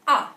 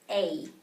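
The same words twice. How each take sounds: First: It is said like the vowel in 'cat'. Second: It is said like the vowel in 'day'. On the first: This is the letter's sound inside some words. "in some words you may hear it as A" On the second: This is the name of the letter. "it is spelled out as A"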